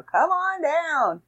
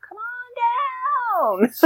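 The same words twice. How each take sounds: First: High, slow hammed-up sales pitch; used car salesman. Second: Said in the usual way. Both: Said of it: "I sound like a used car salesman now".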